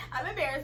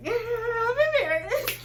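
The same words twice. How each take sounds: First: Said in the usual way. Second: High, loud and slow through laughter; laughing. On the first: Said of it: "I laughed too". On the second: Retold or imitated. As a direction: laugh it out, embarrassed. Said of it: "I laughed too because I was like".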